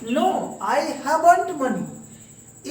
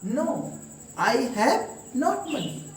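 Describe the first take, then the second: First: Have not is contracted into one word. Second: Have not is said as two full words. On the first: "British style में" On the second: "Indian style"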